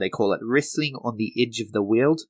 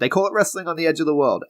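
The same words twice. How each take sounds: First: It is said in a put-on New Zealand accent. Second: It is said in his own British accent.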